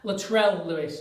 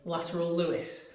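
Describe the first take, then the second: First: The first name sounds like 'Latrell'. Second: The first name sounds like the word 'lateral'. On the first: The speaker calls it right. "apologies there" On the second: The speaker calls it wrong. "that's not the best pronunciation of Lateral"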